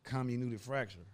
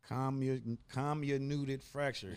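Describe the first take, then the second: First: It is said at normal conversational speed. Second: It is said more slowly and carefully.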